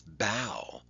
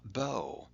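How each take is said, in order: First: The vowel rhymes with 'cow'. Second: The vowel rhymes with 'go'. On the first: Bending forward from the waist. The speaker calls it right. "that's bow. That man in the image is bowing" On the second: A ribbon or a violin bow. The speaker calls it wrong. "that's not bow"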